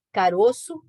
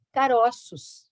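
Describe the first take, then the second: First: Closed stressed O in Caroço; "Caroço", the stressed O rounded and closed; closed vowel. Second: "caroços", the stressed vowel open, as in the plural. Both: Shown as a demonstration. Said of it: "no plural eu dou uma modificada no timbre".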